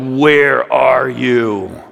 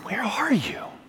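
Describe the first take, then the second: First: The voice sounds angry and condemning. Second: The voice sounds worried and caring. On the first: The listener is being blamed for being absent. "in like an angry, condemning voice" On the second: The listener seems lost and someone is worried. "like a concerned friend that feels like you're lost"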